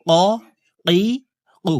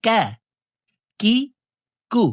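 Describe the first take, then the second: First: "ক, কি, কু" from the very root of the tongue; deep Arabic qaf. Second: "কা, কি, কু" a little forward of the tongue root; Arabic kaf. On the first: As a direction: say "ক, কি, কু" as a back q against the palate above. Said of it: "জিহ্বার গোড়া তার বরাবর উপরের তালুর". ("ক, কি, কু" জিহ্বার গোড়া থেকে) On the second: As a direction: say "কা, কি, কু" with a light k, further forward than qaf. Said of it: "আর কাফ হরফের উচ্চারণ হবে এইভাবে". ("কা, কি, কু" গোড়া থেকে একটু আগে) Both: Shown as a demonstration.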